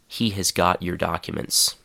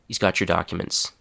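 First: Each of the first words is said clearly. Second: The first words blur together into one short chunk.

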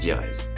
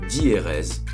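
First: The word is said in two syllables. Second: The word is stretched into three syllables. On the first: "au lieu de prononcer diérèse" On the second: "c'est le fait de prononcer diérèse"

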